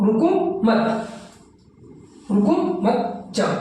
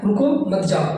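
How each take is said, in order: First: रुको मत joined, then a break before जाओ; pause after मत. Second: रुको, a light break, then मत जाओ; slight pause after रुको. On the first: (मत के बाद विराम) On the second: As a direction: keep मत जाओ together after a small pause. (रुको के बाद हल्का विराम) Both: Shown as a demonstration. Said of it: "हल्का सा अब विराम लगाया".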